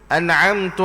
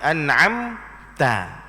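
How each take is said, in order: First: The final syllable ends with a 'u' vowel. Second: The final syllable ends with an 'a' vowel. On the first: The speaker calls it wrong. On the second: The speaker calls it right. "ta tu bagi hatah dia"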